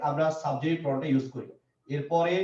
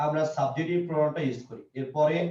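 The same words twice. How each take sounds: The two takes are said the same way.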